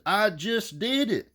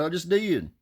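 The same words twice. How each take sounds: First: High, slow, every word leaned on; exasperated repeat. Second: Said in the usual way. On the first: Retold or imitated. Caller repeats himself higher and slower to a pushy salesman. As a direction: drag it out as if he's told him twice already.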